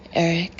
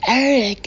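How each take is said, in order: First: It is said in a soft, husky voice. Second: It is said in a loud yell.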